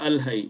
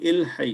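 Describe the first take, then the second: First: The word begins with an 'a' vowel. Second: The word begins with an 'i' vowel. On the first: The speaker calls it wrong. "not Al Hay" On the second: The speaker calls it right. "It will be Il Hay"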